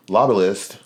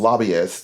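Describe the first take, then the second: First: "lobbyist" with an extra L, like lobba-list; mispronounced word. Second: "Lobbyist" said cleanly as LOB-ee-ist; corrected pronunciation. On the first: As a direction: stumble into "lobbyist" as LOB-uh-list. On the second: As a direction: repeat "Lobbyist" carefully, no L in the middle. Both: Real, not acted. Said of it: "Thank you for saying it".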